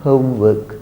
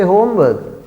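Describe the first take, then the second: First: HOMEWORK with gliding OH-oo in HOME; recommended pronunciation. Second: HOMEWORK with a pure, unglided o; others' mispronunciation. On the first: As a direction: model HOMEWORK with the o diphthong. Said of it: "you try to practice and use". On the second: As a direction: say HOMEWORK as others do, no glide in HOME. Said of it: "Let others say homework". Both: Shown as a demonstration.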